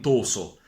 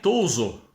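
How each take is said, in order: First: It is said with a central-southern Italian pronunciation. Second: It is said with a native Venetian pronunciation. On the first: The word is read as if it were written Italian. The speaker calls it wrong. "la lettura della scritta italica, tipica del centro e del sud" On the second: This is how the word really sounds in Venetian. The speaker calls it right. "E è toso la parola"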